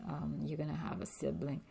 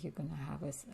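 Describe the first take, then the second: First: Faster, hushed retelling of the news; quicker retake. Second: Soft hushed false start; quiet start. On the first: Telling her daughter, a quicker hushed retake. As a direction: rush the line out softly. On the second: Telling her daughter, a soft hushed false start. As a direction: trail off quietly mid-word. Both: Shown as a demonstration. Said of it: "I'm like".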